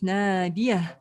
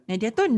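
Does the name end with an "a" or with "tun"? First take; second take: a; tun. First: The name ends on a plain vowel. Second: The name ends with an extra "tun" syllable. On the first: The speaker calls it right. "your name is Nadia" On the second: The speaker calls it wrong. "you do not pronounce it as Nadiatun"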